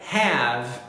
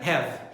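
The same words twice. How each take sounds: First: The vowel is longer and more exaggerated. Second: The vowel is short and not exaggerated. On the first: The speaker calls it right. "diga have. Viu aí? Ela é um pouquinho mais longa" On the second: The speaker calls it wrong. "não diga have"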